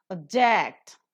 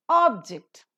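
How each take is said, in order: First: ObJECT, short weak "Ob", strong drawn "ject"; stress on second syllable. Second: OBject, loud full "Ob", lighter "ject"; stress on first syllable. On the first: Teacher demonstrating the verb for students, "Object" stressed on JECT. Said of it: "a verb". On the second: Teacher demonstrating the noun for students, "Object" stressed on OB. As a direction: noun "Object": hit OB, let ject drop. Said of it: "a noun". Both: Shown as a demonstration.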